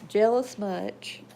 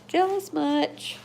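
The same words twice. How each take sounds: First: Slow teasing to the dog; drawn-out tease, louder. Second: High, slow, loud teasing. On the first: Teasing her jealous dog, slow and louder. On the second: Teasing her jealous dog again, higher and louder. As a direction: pitch the tease way up. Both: Real, not acted.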